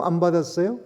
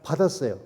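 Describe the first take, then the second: First: 받았어요 with a rising question tune; 안 받았어요 asked, 받았어요 lifted at the end; 받았어요 rising, put to the congregation; asking question. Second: 받았어요 with a falling, final tune; 받았어요 falling as the answer to the congregation; settled answer. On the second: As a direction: answer 받았어요 flatly, dropping at the end. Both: Shown as a demonstration. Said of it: "성령을 받았어요?".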